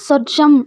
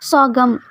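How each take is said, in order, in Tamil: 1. நடுவில் உள்ள மெய் j ஒலி. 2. நடுவில் உள்ள மெய் g ஒலி. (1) "ஒவ்வொருத்தங்க சொர்ஜம் அப்படின்னு சொல்லுவாங்க" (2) "எப்படி ப்ரொனவுன்ஸ் பண்ணணும் அப்படின்னா சோகம்"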